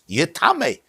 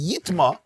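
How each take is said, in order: First: The word is said in three syllables, ending in 'meh'. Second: The word is said in two syllables, ending in 'ma'. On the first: The food can also pass impurity on. "it can also be pronounced as yitame" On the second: The food itself becomes impure. "the Torah says yitma"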